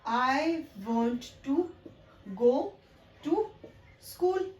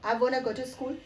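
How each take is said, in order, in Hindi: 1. 'Want to' के दोनों शब्द पूरे बोले जाते हैं। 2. 'Want to' मिलकर एक शब्द 'wanna' बन जाता है। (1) "बहुत ही एम्फेसाइज करके बोल रहे थे" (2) "एडवांस इंग्लिश की जब बात करते हैं"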